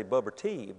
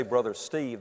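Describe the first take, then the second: First: Put-on "Bubber Teeb" instead of Brother Steve, soft baby lisp; toddler mispronunciation. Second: Said in the usual way. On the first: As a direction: say "Bubber Teeb" like a little kid who can't say the name. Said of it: "couldn't say Brother Steve". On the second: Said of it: "they'd say Bubber Teeb".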